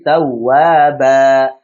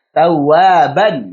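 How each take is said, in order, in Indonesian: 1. Kata ini berakhir dengan vokal 'a' yang dipanjangkan. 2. Kata ini berakhir dengan bunyi 'an' yang pendek.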